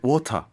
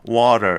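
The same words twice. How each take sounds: First: It is said with no r sound at the end. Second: It is said with a flapped t and final r. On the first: The child copied the mother's speech. "엄마 말을 많이 들으니까" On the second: The child picked up the local speech. "어느 순간 갑자기"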